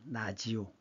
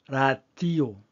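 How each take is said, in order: First: The middle consonant is a 'j' sound. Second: The middle consonant is a 'd' sound. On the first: This is how older grandmothers said the word. "라지오라고 발음했습니다" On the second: This follows the spelling of the word. "D 발음해 보세요"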